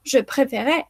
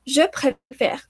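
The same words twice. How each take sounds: First: "je préférais" with an extra é sounded at the end; wrong pronunciation. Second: Slow "Je préfère" ending on r, final e silent; correct pronunciation. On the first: Teacher shows what not to say, final E wrongly sounded. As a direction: add a voiced é after the r in "je préférais". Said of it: "Yo no digo". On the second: Teacher gives the correct present, slowly, final E silent. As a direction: slowly end "Je préfère" without a last vowel. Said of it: "la última E ya no suena". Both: Shown as a demonstration.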